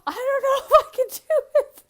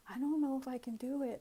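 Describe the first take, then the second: First: Very high, loud mock-crying squeal; hammed-up tearful protest; panicked mock wail. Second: Higher, laughing nervous protest; half-laugh it, doubting yourself; lightly acted self-doubt. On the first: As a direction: wail it fast in comic panic. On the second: Acts out doubt to archangel.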